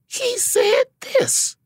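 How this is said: It sounds puzzled, as if just discovering it. The comic is discovering the information along with the audience. "Wanda has a way of discovering the information with the audience at the same time"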